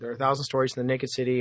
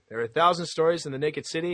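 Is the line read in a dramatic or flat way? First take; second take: flat; dramatic. First: The line is read plainly with little expression. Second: The line is read in a dramatic narrator voice. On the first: The reader is not selling the story. The speaker calls it wrong. "some people will read it like that" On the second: The reader is selling the story. The speaker calls it right. "I'm selling it"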